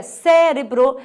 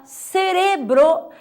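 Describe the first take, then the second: First: Cérebro said CÉ-re-bro; Portuguese stress. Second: Cerebro said slowly, ce-RE-bro; Spanish stress. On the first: Teacher giving the Portuguese form, cérebro stressed on CÉ. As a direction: lean on CÉ in cérebro. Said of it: "em português é cérebro". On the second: Teacher contrasting tonic syllables, cerebro stressed on RE. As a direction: draw out RE in cerebro. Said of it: "a sílaba tônica em português". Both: Shown as a demonstration.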